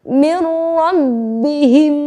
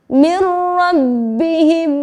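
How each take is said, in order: The two takes are said the same way.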